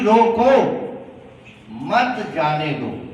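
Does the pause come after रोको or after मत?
after रोको. The pause comes right after रोको.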